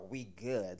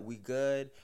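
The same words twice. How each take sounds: First: It sounds condescending and rude. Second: It sounds friendly and relaxed.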